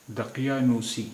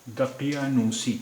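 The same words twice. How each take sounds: First: Said in the usual way. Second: Slow careful model. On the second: Shown as a demonstration. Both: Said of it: "अब ये शब्द है".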